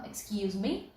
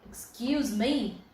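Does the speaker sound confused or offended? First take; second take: confused; offended. First: It sounds puzzled, like asking to hear it again. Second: It sounds offended, like objecting to what was said. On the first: The listener did not understand what was said. "You didn't understand" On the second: The listener disliked what was said. "if you're offended, if you really didn't like that"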